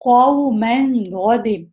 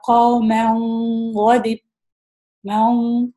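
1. ن صاف ادا ہوتا ہے، ناک کی آواز سے چھپایا نہیں جاتا۔ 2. ن کو ناک کی گونج سے چھپا دیا جاتا ہے۔ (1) "اس میں ایکسپریس کرنا ہے" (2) "ناک سے پڑھ رہا ہے"

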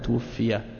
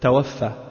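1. La première voyelle est u, se terminant par -iya. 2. La première voyelle est a, se terminant par -affa. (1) "on dit de cette façon, tuwfiya" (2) "On ne dit pas, comme certains ... ils disent « tawaffa »"

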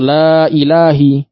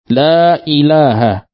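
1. Kata ilah diakhiri dengan vokal i. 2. Kata ilah diakhiri dengan vokal a. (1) "atau la ilahi. Tidak boleh" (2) "Dibacanya dengan la ilaha, dengan fathah"

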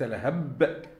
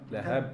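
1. يُدفع الحرف الأخير بقوة زائدة. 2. يُنطق الحرف الأخير بخفة وبسرعة.

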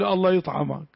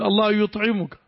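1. يُنطق الفعل بحركة 'a' مفتوحة. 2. يُنطق الفعل بحركتي 'u' و'i'. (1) "العام يقول الله يطعمك، خطأ هذا" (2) "قل الله يطعمك"

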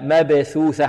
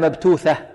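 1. كلا الحرفين الأوسطين صوت th خفيف. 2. الأول t، والثاني th. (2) "ولا مبتوثة"

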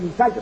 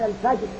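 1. الراء في الآخر ثقيلة ومفخمة. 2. الراء في الآخر خفيفة ورقيقة. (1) "لكن الفجر أفضل" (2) "وسع وقرآن الفجر"

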